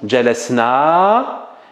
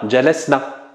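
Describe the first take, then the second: First: The final vowel is long. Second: The final vowel is short. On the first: We sat. "on va dire nahnu jalasna" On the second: They (feminine plural) sat. "on dira hunna jalasna"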